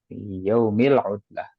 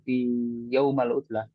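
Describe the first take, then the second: First: The word yaum ends with an i vowel. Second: The word yaum ends with an a vowel. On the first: The speaker calls it right. "Kalau fi berarti kata setelahnya kasroh" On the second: The speaker calls it wrong. "dia tahu kalau itu salah"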